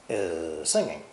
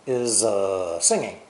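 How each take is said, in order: First: The two words run together as one word. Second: A hesitation sound breaks the two words apart. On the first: The speaker calls it right. "connected together and spoken as one word" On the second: The speaker calls it wrong. "Don't say is uh, singing"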